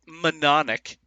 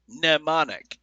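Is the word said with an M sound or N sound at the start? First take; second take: M sound; N sound. First: It begins with an audible M sound. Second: It begins with an N sound, no M. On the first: The speaker calls it wrong. "You don't" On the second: The speaker calls it right. "it's an N sound"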